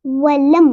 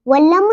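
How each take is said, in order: First: वलम stopping on a shut M; correct closed M. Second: वलम with an added final vowel, "walama"; wrong bounced M. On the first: Teacher models the right reading, closed वलम. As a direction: close वलम cleanly, no echo. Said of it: "इस तरह पढ़ेंगे". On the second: Teacher shows what not to read, bounced वलम. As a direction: let the M of वलम spring open. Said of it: "वलम नहीं पढ़ेंगे". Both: Shown as a demonstration.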